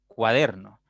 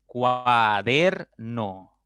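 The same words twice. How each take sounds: First: Said in the usual way. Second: "Cuaderno" very slowly as cua - der - no; syllable by syllable. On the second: Shown as a demonstration. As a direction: draw "Cuaderno" out in three separate beats, cua, der, no. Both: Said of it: "pueden descomponerse en tres sílabas".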